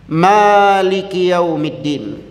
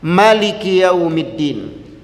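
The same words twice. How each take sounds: First: The vowel after the m is drawn out long. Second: The vowel after the m is kept short. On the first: "Bacaan yang pertama dengan memanjangkan huruf mim" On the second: "bacaan kedua dengan memendekkan huruf mim"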